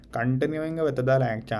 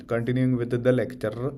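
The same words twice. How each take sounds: First: Heavy Indian English accent, stress on with; exaggerated Indian accent, lecture tone; thick Indian accent. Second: Said in the usual way. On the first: Shown as a demonstration. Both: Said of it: "I'm just gonna use my thick Indian accent".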